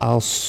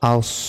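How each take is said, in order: The two takes are said the same way.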